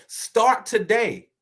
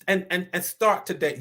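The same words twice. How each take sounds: First: Slow, punched "Start today." with weight on "Start"; emphatic urging. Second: Said in the usual way. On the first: Acted. Preacher urging the congregation to act, slow and emphatic. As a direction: drag out "Start today." and land hard on "Start".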